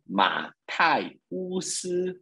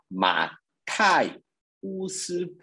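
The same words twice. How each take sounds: First: Said in the usual way. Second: "Matai Usi" drawn out very slowly, syllable by syllable; slow teaching demo of "Matai Usi"; slow demo pronunciation. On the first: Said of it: "ficou o nome de". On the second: Shown as a demonstration. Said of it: "por exemplo".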